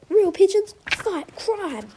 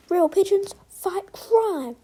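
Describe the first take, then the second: First: Slow, proud, loud declaration; triumphant. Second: Slow, proud, loud slogan. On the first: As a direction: proclaim it like a slogan. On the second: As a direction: declare it like a motto. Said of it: "what Rock said before". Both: A narrator's reading.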